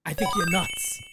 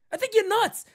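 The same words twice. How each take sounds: First: Said in the usual way. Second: Higher, louder, "nuts" hit hard; emphatic repeat. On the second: Real, not acted. Host doubles down on fans of the reliever, louder. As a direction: punch it the second time like you mean it.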